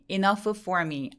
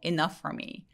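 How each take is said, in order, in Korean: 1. 두 개의 f 소리는 따로 발음해요. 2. 두 개의 f 소리는 하나로 합쳐져요. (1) "아니고" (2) "F와 F가 만났어요"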